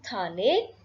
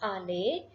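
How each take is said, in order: First: The word starts with a linked t sound. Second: The word starts with a vowel, no t. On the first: The word is linked to the word before it. "this t will be pronounced. It becomes thale" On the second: The word is said on its own. "Second word, it is ale"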